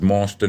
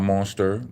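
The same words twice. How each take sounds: First: The word ends in an 'ah' sound without R. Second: The word ends in a clear 'er' sound with R. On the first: The speaker calls it right. "That's an A in monster, no E's and R's" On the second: The speaker calls it wrong.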